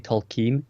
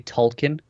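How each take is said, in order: First: It is said the American way, ending in 'keen'. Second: It is said the British way, ending in 'kin'.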